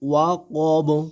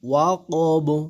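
First: The word ends on the consonant 'b'. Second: The same.

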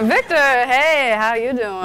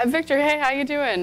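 First: It is said in a seductive, sultry way. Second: It is said in a plain, normal way.

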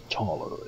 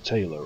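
First: The first vowel sounds like the one in law. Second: The first vowel sounds like the one in day. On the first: The speaker calls it right. "taller is the more proper pronunciation" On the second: The speaker calls it wrong. "I've been calling him Taylor all the time"

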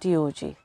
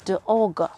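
First: Each letter is spoken by its alphabet name. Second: Each letter is spoken as its phonic sound. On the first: The speaker calls it wrong. "Dog is not D-O-G" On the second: The speaker calls it right. "it's D-O-G"

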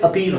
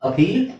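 First: The word is said in an American accent. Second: The word is said in a British accent. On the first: "American English ಅಲ್ಲಿ ಅಪೀಲ್ ಅಂತ ಹೇಳ್ತಾರೆ" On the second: "British English ಅಲ್ಲಿ"

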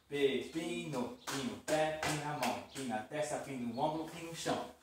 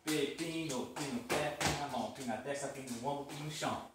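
First: It is said at medium speed. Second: It is said fast.

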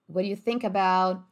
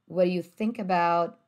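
Both takes have the same delivery.

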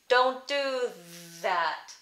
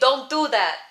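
First: The D sounds are crisp, tongue on the ridge. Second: The D sounds are dull, tongue against the teeth. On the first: "I'm not saying don't do that" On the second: "a very stereotypical New York City, Brooklyn accent"

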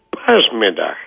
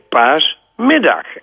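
First: The stress is on the first syllable. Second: The stress is on the second syllable. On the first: The speaker calls it wrong. "en niet paasmiddag" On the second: The speaker calls it right. "dan mag je zeggen paasmiddag"

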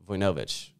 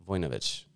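The two takes are said the same way.

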